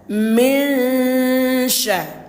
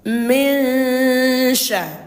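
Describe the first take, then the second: Both takes have the same delivery.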